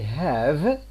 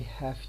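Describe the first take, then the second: First: The word ends in a voiced v sound. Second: The word ends in a voiceless f sound. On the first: "I have" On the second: "it becomes I have to. This v here changes into f"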